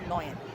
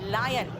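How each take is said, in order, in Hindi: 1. पहला अक्षर 'loy' जैसा सुनाई देता है। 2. पहला अक्षर 'lie' जैसा सुनाई देता है। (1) "not लॉयन" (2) "so this is लायन"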